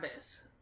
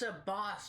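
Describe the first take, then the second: First: The name is said with an English-style pronunciation. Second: The name is said with an Arabic pronunciation. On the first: The speaker calls it wrong. "not Abbas" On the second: The speaker calls it right. "his name is Abbas"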